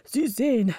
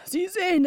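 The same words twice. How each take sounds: First: Said in the usual way. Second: Second "Sie sehen" jumps much higher, pressing; higher insistent repeat. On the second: A narrator's reading. Councillor insists to the others, pitch leaping up. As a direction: push the repeated "Sie sehen" up high and urgent. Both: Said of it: "indem er rief".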